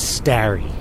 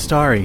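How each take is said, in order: First: The first vowel rhymes with Larry. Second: The first vowel does not rhyme with Larry.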